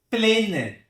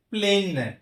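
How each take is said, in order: Both takes have the same delivery.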